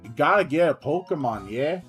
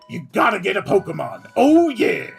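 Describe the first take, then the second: First: It is said in a Wakka impression. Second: It is said in a Kool-Aid Man impression.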